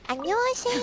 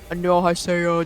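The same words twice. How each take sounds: First: It is said in a high voice. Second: It is said in a deep voice.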